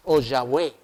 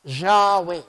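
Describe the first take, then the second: First: Yahweh said as ya-we, plain y onset; alternate pronunciation. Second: Yahweh with a zh onset and open final e; pronounced Yahweh. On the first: Teacher giving the class a second way to say Yahweh, lower and calmer. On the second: Teacher showing the class how to say Yahweh, carefully pronounced. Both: Shown as a demonstration. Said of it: "lo más parecido era pronunciar".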